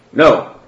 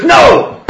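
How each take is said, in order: First: Firm, raised-voice no; firm refusal. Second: High, loud shout of NO; shouted refusal. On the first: Father Ropshon answering the Grand Theologian, firm refusal. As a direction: refuse with some force. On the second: Father Ropshon refusing a second time, shouted refusal. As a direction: cry out the refusal at full force. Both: Acted.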